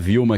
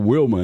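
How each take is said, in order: First: The name begins with a V sound. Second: The name begins with a W sound. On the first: This is how it is said in Brazil. "gente fala Vilma" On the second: This is how it is said in the United States. "O W tem som de U ... lá é o Wilma"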